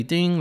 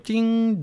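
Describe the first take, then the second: First: Said in the usual way. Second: "ding" sung much higher, like a timer chime; ping it out high like a microwave finishing. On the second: Retold or imitated. Dad mimicking the microwave telling him the meat is done, high chime. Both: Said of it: "like a microwave".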